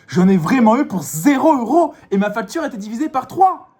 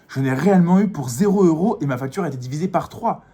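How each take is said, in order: First: It is said with pushed, exaggerated energy. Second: It is said with mild, restrained energy. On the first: "on peut vraiment pousser le truc" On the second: "je vous l'ai fait soft"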